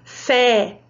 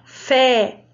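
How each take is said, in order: No difference in how they are said.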